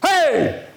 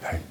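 First: It is yelled loudly. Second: It is said quietly.

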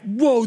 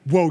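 First: It sounds amazed and delighted. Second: It sounds stern and warning. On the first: Something is impressive. The speaker calls it wrong. "that's so awesome" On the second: Stop and step back now. The speaker calls it right. "you better take a step back right now"

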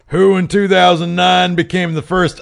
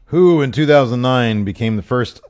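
First: It is read in a put-on character voice. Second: It is read in the speaker's normal voice.

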